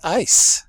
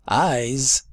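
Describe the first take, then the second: First: The word ends with a hissing 's' sound. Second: The word ends with a buzzing 'z' sound. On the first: The speaker calls it wrong. "but it's pronounced as an S" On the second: The speaker calls it right. "an ending S should be pronounced as a Z"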